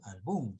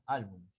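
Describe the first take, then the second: First: The stress falls on the last syllable. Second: The stress falls on the first syllable. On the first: The speaker calls it wrong. "No dicen álbum" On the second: The speaker calls it right. "sino álbum"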